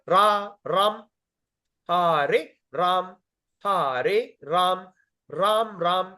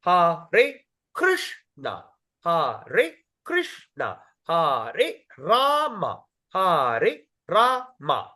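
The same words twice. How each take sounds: First: Slow Hare Ram, Ram closed on M with no A; swallowed syllable. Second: HA-RE, KRISH-NA, RA-MA, each syllable slow and separate; two syllables per word. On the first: Teacher shows students the mistake, Ram losing its second syllable. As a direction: chant Ram as one held syllable, final A missing. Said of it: "You're swallowing the words". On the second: Teacher counts syllables for students, each drawn out and separated. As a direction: chant Hare Krishna, Hare Rama very slowly, syllable by syllable. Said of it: "every word got two". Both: Shown as a demonstration.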